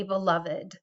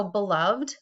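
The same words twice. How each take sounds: First: "beloved" in three syllables, be-LOV-ed; separate -ed syllable. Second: Said in the usual way. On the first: Shown as a demonstration. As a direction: sound the final -ed of "beloved" as its own syllable. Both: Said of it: "often a separate syllable".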